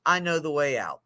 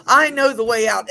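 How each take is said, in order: First: "I know the way out" said soft and low, calm; calm reassurance. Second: "I know the way out" said higher and louder, punched; emphatic repeat. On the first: Retold or imitated. Peer specialist calmly reassures the man in the hole. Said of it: "And the peer support specialist says". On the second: Shown as a demonstration. Speaker repeats the line to the group, emphatic and loud. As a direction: proclaim it to the room with conviction. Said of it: "Isn't that beautiful?".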